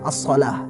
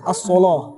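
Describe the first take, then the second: First: The L sound is thin and light. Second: The L sound is thick and heavy. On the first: This follows the usual reading tradition. "kalau kita kan Hafs an Asim" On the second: This follows another reading tradition. "Itu namanya lam al-mufakhamah"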